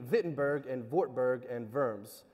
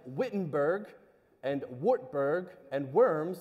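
First: The names begin with a V sound. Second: The names begin with an English W sound. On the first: The speaker calls it right. "I'm going to pronounce them with a V sound" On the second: The speaker calls it wrong. "what looks like"

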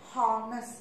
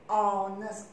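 First: The word starts with a pronounced h sound. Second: The word starts with a vowel, h silent. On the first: The speaker calls it wrong. "You cannot read honors. The sound is not H" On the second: The speaker calls it right. "You read honors. All sound"

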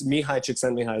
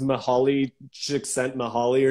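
First: The name is said in its native way. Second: The name is read the way it looks. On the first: The speaker calls it right. "is how you pronounce it" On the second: The speaker calls it wrong. "it looks like it's pronounced"

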